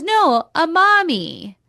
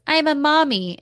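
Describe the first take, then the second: First: Much higher, slower and louder, stretching mommy; hammed-up high insistent no, a mommy; insistent mock mommy. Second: Higher, lightly sing-song mock of her; a touch of a cutesy woman voice; mock cutesy mommy. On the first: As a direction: correct him with exaggerated insistence. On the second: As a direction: play her coy and sweet, slightly up in pitch. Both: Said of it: "she goes".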